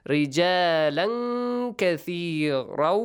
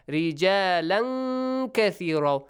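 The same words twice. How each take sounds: Both takes have the same delivery.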